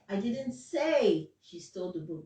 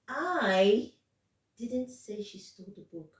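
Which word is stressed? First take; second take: say; I. First: The word say carries the main stress. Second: The word I carries the main stress. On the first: It was conveyed another way, not said aloud. "That means I gave you a sign or I wrote it" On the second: Someone else said it. "Now the stress is on. I'm not the one that said it"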